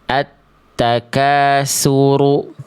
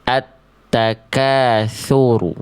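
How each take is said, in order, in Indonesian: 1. Bunyi konsonan kuncinya seperti s. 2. Bunyi konsonan kuncinya seperti th. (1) "Jangan dibaca"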